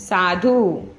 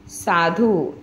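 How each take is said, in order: No difference in how they are said.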